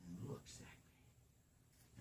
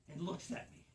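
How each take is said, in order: First: Slow, hushed whisper; slow spooky whisper. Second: Said in the usual way. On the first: A narrator's reading. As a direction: draw it out in a creepy whisper. Repeated for suspense.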